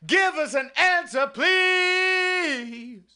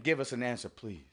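First: Pleading shout. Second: Much softer, lower, dying away; fading plea. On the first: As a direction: cry the plea out to heaven. Prayer peak, shouted plea. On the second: Repeating the prayer to the Lord, fading to a hush. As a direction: let the plea fall to almost nothing. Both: Acted.

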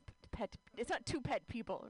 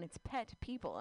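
First: "pet" stressed as a verb, "pet people" like an order; verb reading. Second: "pet people" said as one noun, stress on "pet"; noun reading. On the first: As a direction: say "pet people" as an instruction to pet them. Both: Shown as a demonstration. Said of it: "it's a noun".

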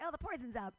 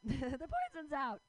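First: Said in the usual way. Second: Laughing it out, higher and louder, slower; cracking up at her own line; laughing repeat. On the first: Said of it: "and I'm like". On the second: Real, not acted. Repeating her punchline to the crowd, laughing.

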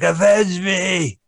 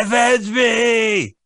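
First: Slow, high, dying shout; overacted dying cry for revenge; overacted death scene. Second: Slow, very high, drawn-out shout; overacted death scene. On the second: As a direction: ham up the dying plea. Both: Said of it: "He's like".

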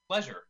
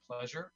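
First: Said in the usual way. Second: Muttered softly with a rising end; mumbled answer. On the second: Acted. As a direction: say it quietly, almost to yourself. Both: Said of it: "Excuse me?".

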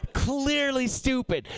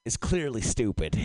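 First: CLEARLY drawn out and pitched high; slow, raised stress on "Clearly"; emphatic repeat. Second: Said in the usual way. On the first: Real, not acted. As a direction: lean hard on "Clearly", slowly. Repeats verdict emphatically after laughing.

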